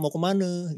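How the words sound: The last word ends in an 'e' vowel. The speaker is from the central area. "kalau kadang-kadang "e""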